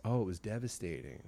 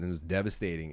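First: Softly repeated in sympathy; quiet, heartfelt retold echo; empathizing echo. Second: Said in the usual way. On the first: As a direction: echo it back gently, as if feeling it. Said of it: "You could see him empathizing". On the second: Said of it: "he was repeating what I was saying back".

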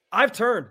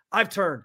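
First: I've turned said firmer the second time; emphatic repeat. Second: Said in the usual way. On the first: Real, not acted. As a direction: repeat it with more weight.

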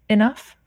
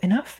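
First: Firm command. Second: Puzzled question. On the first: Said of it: "my higher self was like". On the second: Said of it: "And I just thought". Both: Retold or imitated.

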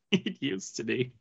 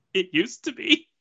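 First: Dropped, soft and flat; quiet. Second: Higher, rising wistful take; raised pitch. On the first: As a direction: let it fall away quietly. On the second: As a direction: lift it up playfully. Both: Shown as a demonstration.

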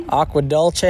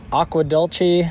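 First: Dulce said as DUL-chay; alternative pronunciation. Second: Dulce said as DUL-chee; alternative pronunciation. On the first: Hiker showing another way people say the town, Dulce as DUL-chay. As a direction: say Dulce with a ch and an ay ending. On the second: Hiker showing listeners how the town is also pronounced, Dulce as DUL-chee. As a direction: say Dulce with a ch and an ee ending. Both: Shown as a demonstration. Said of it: "also pronounced".

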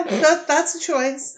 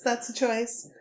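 First: Incredulous. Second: Said in the usual way. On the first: Real, not acted.

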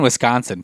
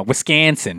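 First: Said in the usual way. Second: Put-on Wisconsin accent, flattened middle vowel in "Wisconsin"; softly put-on Wisconsin accent. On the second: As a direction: say "Wisconsin" like a local, playful accent. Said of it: "a lot of accents coming from you".

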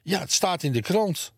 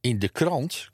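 First: High, agitated aunt; flustered insistence. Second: Puzzled echo in a near-normal voice; questioning echo. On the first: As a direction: insist in a much higher voice. Flustered aunt insists on newspaper report. (opgewonden, met hoge stem) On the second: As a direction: repeat it as a baffled question. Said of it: "klonk het weer uit twee monden". (verbaasd vragend herhaald) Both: A narrator's reading.

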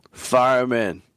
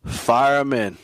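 First: Said in the usual way. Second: Whispered urging. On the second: Real, not acted. Host urging listeners to start the player, whispered. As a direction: hiss it like a secret tip.

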